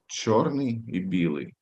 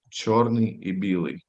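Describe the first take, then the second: No difference in how they are said.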